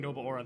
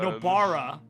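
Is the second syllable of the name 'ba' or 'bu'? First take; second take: bu; ba. First: The second syllable sounds like 'buo'. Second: The second syllable sounds like 'ba'. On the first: The speaker calls it wrong. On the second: The speaker calls it right.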